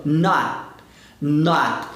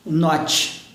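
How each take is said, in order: First: "Not" with the final T held on the palate, unreleased. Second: "not" with the final T let go, like "notchi"; wrong "not" with a released final T. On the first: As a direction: cut "not" off on a trapped T. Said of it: "É o T preso". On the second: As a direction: let the T at the end of "not" pop out. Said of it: "eu não solto, eu travo". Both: Shown as a demonstration.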